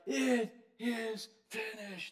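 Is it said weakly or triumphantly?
weakly. It is said weakly, like someone nearly dead.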